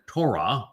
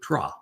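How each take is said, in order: First: The word keeps its O vowel sound. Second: The word is said without the O sound. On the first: The speaker calls it right. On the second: The speaker calls it wrong.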